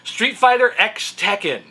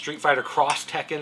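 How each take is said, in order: First: The X is read as the letter ex. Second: The X is read as the word cross. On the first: "but I call it X" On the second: "is how you're supposed to pronounce it"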